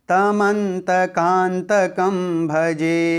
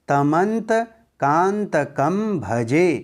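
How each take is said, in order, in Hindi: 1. शब्द के भाग बिना विराम के एक साथ जुड़कर बोले जाते हैं। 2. शब्द के भाग छोटे विरामों के साथ अलग-अलग बोले जाते हैं। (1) "अब इसे एक साथ कैसे बोलेंगे?" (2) "अब दसवें श्लोक को कैसे पढ़ेंगे?"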